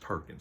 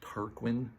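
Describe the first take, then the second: First: The middle has a plain 'k' sound. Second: The middle has a 'kw' sound. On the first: This is how the speaker chooses to say it. "I just read it as Tarkin" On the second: This is how the spelling suggests it. "it's spelled uh, as if it says Tarquin"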